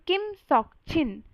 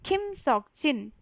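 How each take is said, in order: The two takes are said the same way.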